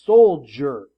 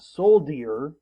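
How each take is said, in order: First: The middle consonant is a J sound. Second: The middle consonant is a plain D sound. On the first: The speaker calls it right. "The D has that J sound" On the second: The speaker calls it wrong. "It's not soldier"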